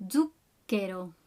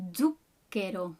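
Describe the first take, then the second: No difference in how they are said.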